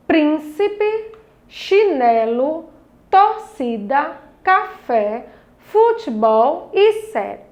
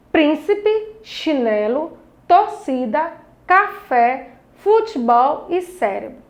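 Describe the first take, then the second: First: "chinelo", "torcida" slowly broken into syllables; separated syllables. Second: Said in the usual way. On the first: Shown as a demonstration. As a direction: read "Príncipe" to "cérebro" as a measured list, syllables held apart. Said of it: "agora vamos fazer a separação". ("chinelo", "torcida" devagar, separando as sílabas) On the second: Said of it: "Nós temos aí".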